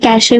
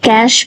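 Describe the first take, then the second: First: It is said with two syllables, ending 'shay'. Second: It is said as one syllable, like 'cash'. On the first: The speaker calls it wrong. "कैशे भी नहीं पढ़ते" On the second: The speaker calls it right. "इसको actually कैश पढ़ते हैं"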